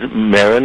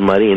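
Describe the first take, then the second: First: The name is given its English pronunciation. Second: The name is given its Spanish pronunciation. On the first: "the English version is Marin" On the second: "the correct Spanish pronunciation is Marine"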